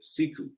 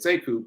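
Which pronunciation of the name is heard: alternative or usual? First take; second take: alternative; usual. First: The name is said in an alternative pronunciation. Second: The name is said in the usual pronunciation. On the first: This is how another person says the name. "He pronounces it differently. He pronounces it Siku" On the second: This is how the speaker says his own name. "I said Sekou"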